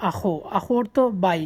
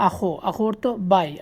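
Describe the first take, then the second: No difference in how they are said.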